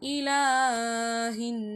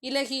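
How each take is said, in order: First: The vowel after the L is held long. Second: The vowel after the L is cut short. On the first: The speaker calls it right. "ரெண்டு விரலுக்கு நீட்டணும்" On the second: The speaker calls it wrong. "இலஹி அப்படின்னு வாசிக்க கூடாது"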